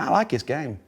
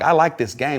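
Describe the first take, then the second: First: The 'th' sound in 'this' is left out. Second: The 'th' sound in 'this' is clearly pronounced. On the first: "we said, no" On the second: "instead of saying like"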